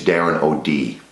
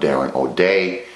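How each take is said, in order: First: The surname ends with a 'dee' sound. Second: The surname ends with a 'day' sound. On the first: The speaker calls it right. "is how it's pronounced" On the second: The speaker calls it wrong. "It is not Darren O'Day"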